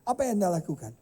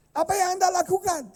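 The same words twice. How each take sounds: First: Said in the usual way. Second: Repeats the question loudly, pushing for an answer; loud demand. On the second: Real, not acted. Preacher to silent mothers, loud insistent question. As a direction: press the crowd for a reply, louder.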